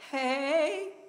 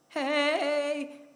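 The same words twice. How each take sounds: First: The voice rises at the end. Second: The voice does not rise at the end.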